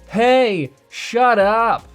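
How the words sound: The pitch rises and drops within the words. The speaker calls it wrong. "the vocal pitch rising and dropping in the middle of words just makes him sound whiny"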